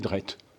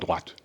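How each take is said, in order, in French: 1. La voyelle se prononce 'eh'. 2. La voyelle se prononce 'wa'. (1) "il disait drette" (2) "il disait pas droite"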